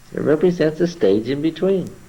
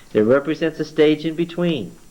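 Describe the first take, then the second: The two takes are said the same way.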